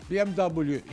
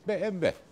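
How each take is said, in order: First: The letters are read with English letter names. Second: The letters are read with Turkish letter names. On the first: "BMW İngilizcesidir" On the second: "Türkçesi BMW"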